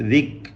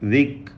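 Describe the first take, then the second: No difference in how they are said.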